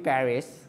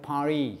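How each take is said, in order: First: The word ends with an s sound. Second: The word ends on the vowel. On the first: "আমরা বলি" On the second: "ওরা অনেকে পারি বলে"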